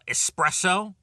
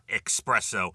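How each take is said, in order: First: The word is said with an s sound. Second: The word is said with an x sound. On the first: The speaker calls it right. "not espresso" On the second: The speaker calls it wrong. "A lot of people put the X in there instead of the S"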